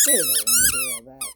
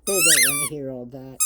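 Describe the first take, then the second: First: Very high put-on voice for the dog; high squeaky dog voice. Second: Said in the usual way. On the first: Voicing Daisy answering the owner, very high squeaky.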